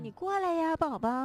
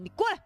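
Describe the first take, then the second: First: It is said in an affectionate tone. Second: It is said in an angry tone.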